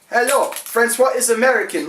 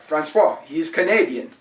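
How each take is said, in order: First: It is said in an American accent. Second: It is said in a Canadian accent.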